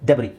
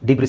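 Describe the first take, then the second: First: The word ends without any s sound. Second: The word ends with an audible s sound. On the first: The speaker calls it right. "So ಎಸ್ is silent" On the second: The speaker calls it wrong. "ಡಿಬ್ರಿಸ್ ಡಿಬ್ರಿಸ್ ಅಂತ ಹೇಳಿದ್ರಲ್ಲ ಎಲ್ಲರೂ. No"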